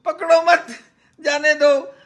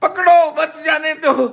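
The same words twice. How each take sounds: First: "पकड़ो मत" run together, pause, then "जाने दो"; high call, break after "मत"; misphrased shouted order. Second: High call, break right after "पकड़ो"; imitated shouted order. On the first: Retold or imitated. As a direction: join "मत" onto "पकड़ो", pause before "जाने दो". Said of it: "sir, आपने बोला ही ऐसे". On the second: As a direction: pause after पकड़ो, then "मत जाने दो" together, high. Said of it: "आपने कहा".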